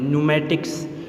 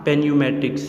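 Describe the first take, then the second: First: The word begins with an n sound. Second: The word begins with a p sound. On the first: The speaker calls it right. "पी को silent रखना है और इसको एन से start करने" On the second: The speaker calls it wrong. "Not"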